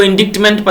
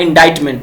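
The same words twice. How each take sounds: First: "इंडिक्टमेंट" with the c sounded as k; mistaken pronunciation. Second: "इंडाइटमेंट" with silent c and long i; correct pronunciation. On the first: Teacher warns friends against misreading the word, mispronounced "इंडिक्टमेंट" with audible k. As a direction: say "इंडिक्टमेंट" as spelt, in-DIKT-ment. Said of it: "मत पढ़िएगा, ये लिखा हुआ है". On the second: Teacher shows friends how to read it, "इंडाइटमेंट" with no k sound. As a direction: say "इंडाइटमेंट" as in-DITE-ment. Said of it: "ये लिखा हुआ है". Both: Shown as a demonstration.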